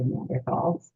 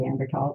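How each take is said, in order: First: The middle consonant is a th sound. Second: The middle consonant is a plain t sound. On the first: The speaker calls it wrong. "instead of" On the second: The speaker calls it right. "the T H is pronounced just as a T"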